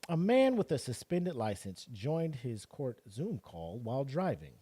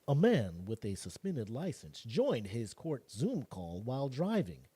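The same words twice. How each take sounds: First: It is read in his ordinary voice. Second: It is read in a put-on newscaster voice.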